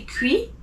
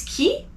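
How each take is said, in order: First: "qui" said as English kwee, with a w glide; the wrong way, sounding "qui" like kwee. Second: "qui" said as French kee, with no w sound; the correct French "qui", plain kee; right qui. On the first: Teacher showing students the wrong "qui". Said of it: "you don't say qui". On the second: Teacher showing students the correct "qui". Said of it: "it's qui". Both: Shown as a demonstration.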